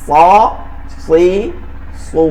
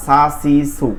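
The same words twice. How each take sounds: First: সা সি সু with a heavy, full s and rounded vowels, one syllable at a time; thick saad. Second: সা সি সু with a thin, light s; thin seen. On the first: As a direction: demonstrate সা, সি, সু as thick saad, pausing between each. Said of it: "সদটা হবে হচ্ছে মোটা". (সা সি সু মোটা সদ দিয়ে, থেমে থেমে) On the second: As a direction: demonstrate সা সি সু with light s and open vowels. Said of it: "সিনটা হবে চিকন". (সা সি সু চিকন সিন দিয়ে) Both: Shown as a demonstration.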